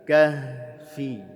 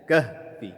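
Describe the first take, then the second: First: The h sound flows out audibly. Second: The h sound is cut short. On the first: The speaker calls it right. "alirkan bunyi haknya" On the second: The speaker calls it wrong. "jangan hanya kahfi"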